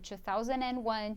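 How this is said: It is said with 'and' before 'one'. This is the usual British English form. "se for brit britânico"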